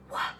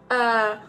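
First: It is said in a whisper. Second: It is said in a normal voice.

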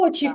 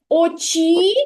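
First: The stress is on the first syllable. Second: The stress is on the second syllable. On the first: The speaker calls it right. "Сила голосу більша на перший склад" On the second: The speaker calls it wrong. "Хіба ми кажемо очі?"

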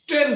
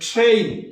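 First: The vowel is a plain 'e' sound. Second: The vowel glides from 'e' to 'i'. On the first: The speaker calls it wrong. "যদি আমরা বলি ট্রেন" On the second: The speaker calls it right. "এর সঠিক উচ্চারণ হবে ট্রেইন"

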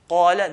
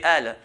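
First: It begins with a deep q sound. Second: The q sound at the start is dropped. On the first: This is the standard pronunciation. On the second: This is how the Levant area says it.

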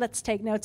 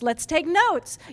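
First: It is said flatly, like a plain statement. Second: It is said perkily, with exclamatory energy. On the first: A plain suggestion with a period. "It's not" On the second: A suggestion ending with an exclamation point. "it's all very perky"

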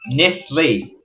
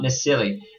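First: The name is said with two syllables. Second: The name is said with three syllables. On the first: The speaker calls it right. "Nisli, not Nisili" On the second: The speaker calls it wrong. "I keep pronouncing it Nisili"

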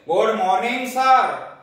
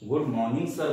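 First: The greeting sounds proud and harsh. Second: The greeting sounds gentle and sweet. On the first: The speaker feels self-important. The speaker calls it wrong. "आजकल बच्चे बोलते हैं" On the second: The speaker feels humble and respectful. The speaker calls it right. "उच्चारण करने का फर्क है"

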